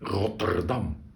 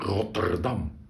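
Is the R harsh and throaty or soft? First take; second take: harsh; harsh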